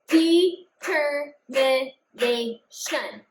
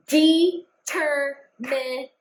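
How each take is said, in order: First: Determination said very slowly, each syllable apart; clapped out syllables. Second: Slow, syllable by syllable with claps; clapped out syllables. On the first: Teacher repeats the word slower so kids count claps. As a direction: clap it out slowly, one beat per syllable. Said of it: "count my claps this time". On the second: Teacher claps out determination slowly for the class. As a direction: stretch the word out beat by beat. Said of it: "We're gonna clap this out together". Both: Shown as a demonstration.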